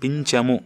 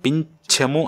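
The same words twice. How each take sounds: First: The ch sound is plain, without aspiration. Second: The ch sound is aspirated. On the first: "మామూలు చాతోటి" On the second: "ఒత్తుచ్చ"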